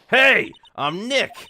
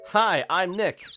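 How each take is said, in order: First: It is said more loudly. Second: It is said fairly quietly.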